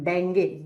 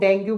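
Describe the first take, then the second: First: The word ends with an 'ay' vowel. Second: The word ends with an 'oo' vowel. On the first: This is how doctors say it. "Doctor डेंगे, डेंगे pronounce करते हैं इसको" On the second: This is how ordinary people say it. "हम लोग डेंगू बोलते हैं"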